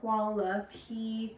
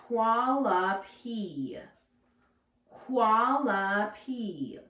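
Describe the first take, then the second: First: Hualapai said slowly in three beats, WA-LA-PAI; clapping the syllables. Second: Hualapai drawn out slowly as WA-LA-PAI; slow careful sounding out. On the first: Teacher clapping Hualapai out with the class. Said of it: "three syllables". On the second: Teacher slowly modelling hualapai for the class. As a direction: stretch hualapai into three slow syllables. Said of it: "also a challenging word". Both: Shown as a demonstration.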